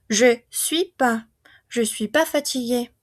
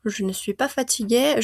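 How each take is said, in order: First: Casual "Je suis pas" with the ne left out; ne dropped. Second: Careful "Je ne suis pas fatigué" with every syllable, ne clearly said; textbook-correct negation; full ne kept. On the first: Teacher showing students the casual spoken form. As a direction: swallow the ne, fast native style. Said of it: "normalmente eliminan esta ne". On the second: Teacher giving students the correct full form. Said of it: "está correcto que lo pronunciemos". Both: Shown as a demonstration.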